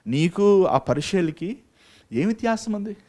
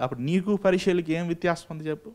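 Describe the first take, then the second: First: Slow emphatic repeat. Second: Said in the usual way. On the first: Shown as a demonstration. Preacher repeats his question to the congregation, slow and pointed. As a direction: drag out నీకు ఆ పరిచయలకి slowly, then lift ఏం వ్యత్యాసం. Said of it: "preacher repeats question slowly". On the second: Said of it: "preacher repeats the question".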